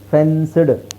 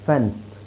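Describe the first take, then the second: First: The ending is a separate voiced d sound. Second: The ending blends into a soft t sound. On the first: The speaker calls it wrong. "ಫೆನ್ಸ್ಡ್ ಸಿಡ್, ಈ ಥರ ಖಂಡಿತ ಅವರು ಮಾತಾಡೋದಿಲ್ಲ" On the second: The speaker calls it right. "Second time ಹೇಳಿರೋದು soft"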